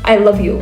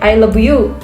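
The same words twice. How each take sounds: First: It is said with a more standard English accent. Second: It is said with a strong Korean accent. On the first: "if they're focusing on pronunciation, then it will it will getting better" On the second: "mostly Korean's English accent is like"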